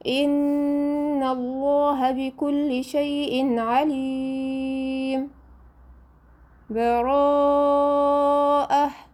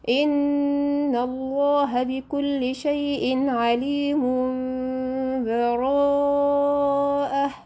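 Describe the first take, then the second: First: A brief break without breath before the last word. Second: The words run together with no break between them. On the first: "السكت ... بتقطعي نفس لمده اظبطيها بحركتين" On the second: "الوصل"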